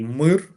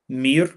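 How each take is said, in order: First: It is said with a Ukrainian pronunciation. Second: It is said with a Russian pronunciation. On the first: It is the Ukrainian word for peace. "mir is peace in Ukrainian" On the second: It is the Russian word for peace. "just Ukrainian and Russian pronunciations are different, is a peace in Russian"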